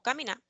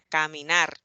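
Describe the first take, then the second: First: The r is said the Santo Domingo way. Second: The r sound is strongly emphasized. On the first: "en Santo Domingo las personas dirían mayormente caminar" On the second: "en el sur se le haría un gran énfasis a este fonema"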